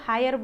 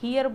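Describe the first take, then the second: First: It starts with an h and sounds like 'hire'. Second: It starts with an h and sounds like 'hear'. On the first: "कोई इसको हायर बोल रहा होगा" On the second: "हियर बोल रहा होगा"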